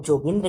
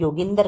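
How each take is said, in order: First: "जोगिंद्र" with an initial J sound; J pronunciation. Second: "योगिंदर" with an initial Y sound; Y pronunciation. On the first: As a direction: say "जोगिंद्र" as Jo-gin-dra, starting on ज. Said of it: "कई लोग जोगिंद्र कहते हैं". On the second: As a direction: say "योगिंदर" as Yo-gin-dar, starting on य. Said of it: "कई लोग योगिंदर कहते हैं". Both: Shown as a demonstration.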